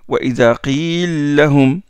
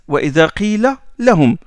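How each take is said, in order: First: The two l sounds are merged into one. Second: The two l sounds are kept separate. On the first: This is one reciter's particular reading. "Donc il fait l'idram" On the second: This is how most reciters read it. "on ne fait pas l'élision chez les qurra"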